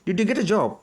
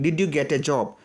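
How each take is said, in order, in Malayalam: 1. വേഗത്തിലാണ് പറയുന്നത്, വാക്കുകൾ ഒന്നിച്ചൊഴുകുന്നു. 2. പതുക്കെയാണ് പറയുന്നത്, ഓരോ വാക്കായി. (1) "സ്പീഡിൽ പറയുമ്പോൾ അത് പ്രൊണൗൺസിയേഷനോട്" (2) "പതുക്കെ മലയാളികൾ പറയുന്ന പോലെ"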